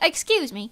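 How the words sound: It is said politely and calmly.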